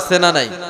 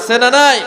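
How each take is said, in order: First: The question is said at normal, softer volume. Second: The question is said louder and with more force.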